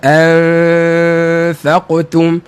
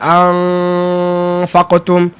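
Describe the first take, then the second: First: The n is hidden in a nasal hum. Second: The n is pronounced fully and clearly. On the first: The speaker calls it right. "So bunyi anfaqtum, an, cukuplah" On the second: The speaker calls it wrong. "Jangan anfaqtum ... Tak betul, tak cermat pada uh, nun yang diikhfa'kan"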